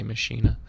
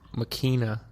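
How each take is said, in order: First: The word is said in an Americanized form. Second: The word is said in its original form. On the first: "me being American and Americanizing everything in my path, I say" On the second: "The correct pronunciation is"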